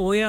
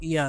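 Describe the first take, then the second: First: The name begins with an 'oh' sound. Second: The name begins with an 'ee' sound. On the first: This is how many people say it. The speaker calls it wrong. "ತುಂಬಾ ಜನ ಇದನ್ನ ಓಯಾ ಅಂತ ಕರೀತಾರೆ" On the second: This is how it is actually pronounced. The speaker calls it right. "ಆಕ್ಚುಲ್ ಆಗಿ ಪ್ರೊನೌನ್ಸ್ ಆಗೋದು ಇಯಾ ಅಂತ"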